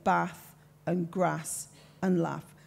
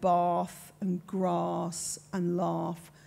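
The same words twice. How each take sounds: First: The vowels are short, as in Brummy speech. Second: The vowels are long, as in posh speech.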